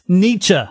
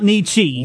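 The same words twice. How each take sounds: First: The name ends without an ee sound. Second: The name ends with an ee sound. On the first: The speaker calls it right. "That's how you pronounce it" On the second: The speaker calls it wrong. "Nietzsche sounds like baby talk"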